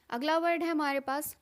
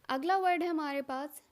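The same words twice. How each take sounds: The two takes are said the same way.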